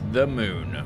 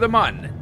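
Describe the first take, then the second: First: The vowel is a long 'oo' sound. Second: The vowel is a short 'uh' sound. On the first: This is the popular pronunciation. "people popularly pronounce it as moon" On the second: This is the official pronunciation. "I think the official pronunciation is mun"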